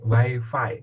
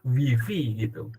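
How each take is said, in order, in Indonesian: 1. Kata ini dibaca dengan bunyi vokal bahasa Inggris. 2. Kata ini dibaca dengan bunyi huruf bahasa Indonesia. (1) "Kalau Anda ingin bahasa Inggris sekalian full bahasa Inggris" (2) "Anda ingin bahasa Indonesia, gunakan bahasa Indonesia saja"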